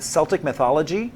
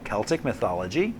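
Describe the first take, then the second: First: Celtic begins with a soft S sound. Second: Celtic begins with a hard K sound. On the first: The speaker calls it wrong. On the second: The speaker calls it right.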